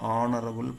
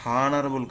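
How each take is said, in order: First: It starts with a vowel, no h. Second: It starts with an audible h sound. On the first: The speaker calls it right. "ఆ అనేది vowel sound" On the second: The speaker calls it wrong. "హానరబుల్ కాదు"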